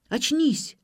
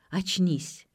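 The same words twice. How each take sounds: First: High, urgent order to come round; sharp command. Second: Gentle, understated plea to come round; tender coaxing. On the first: Vik shaking Ksenia awake, commanding. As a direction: hit ОЧНИСЬ hard and high. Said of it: "велел Вик". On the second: Lukyanov coaxing his sweetheart awake, tenderly. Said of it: "нежно обнимал девушку и пел соловьём". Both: A narrator's reading.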